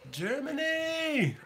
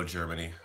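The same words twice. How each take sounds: First: Long, high, stretched-out cheer of "Germany!"; a big delighted shout-out to the German viewers; excited drawn-out call. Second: Said in the usual way. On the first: Real, not acted. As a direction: call out "Germany!" slowly, like hailing a friend across a room. Greeting German viewers in chat.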